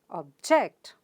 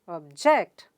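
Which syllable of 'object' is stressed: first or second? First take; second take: second; second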